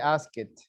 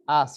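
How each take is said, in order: First: The ending is said as an extra syllable. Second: The ending adds no extra syllable. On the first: The speaker calls it wrong. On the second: The speaker calls it right.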